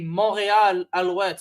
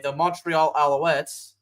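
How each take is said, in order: First: The name is said with a French accent. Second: The name is said with an American accent. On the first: "I'm French American, I gotta say it like that" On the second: "I'll go and say it the American way"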